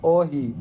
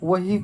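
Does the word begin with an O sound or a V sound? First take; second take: O sound; V sound. First: The word begins with an O sound. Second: The word begins with a V sound.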